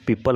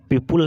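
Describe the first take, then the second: First: "पीपल" said as pee-pal, with a schwa; correct "पीपल" pronunciation. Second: "पीपल" said as pee-pool, with an oo; wrong "पीपल" pronunciation. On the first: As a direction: say "पीपल" with an unrounded second vowel. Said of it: "क्या बोलेंगे?". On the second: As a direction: say "पीपल" with a "pul" second syllable. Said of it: "आप पीपल नहीं बोलेंगे". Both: Shown as a demonstration.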